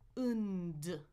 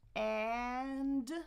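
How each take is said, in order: First: The vowel is a short, relaxed schwa. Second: The vowel is open, with the jaw wide. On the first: "one is the reduced version" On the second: "One is the full version"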